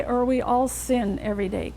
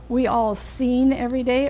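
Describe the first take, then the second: First: "sin" with a short, relaxed ih vowel; "sin" pronounced with a brief ih; short lax I in sin. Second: "seen" with a long, tense ee vowel, lips spread; "seen" pronounced with a long ee. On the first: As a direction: clip "sin" short and loose. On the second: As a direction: say "seen" as a held ee. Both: Shown as a demonstration. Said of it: "Can you hear which is the difference?".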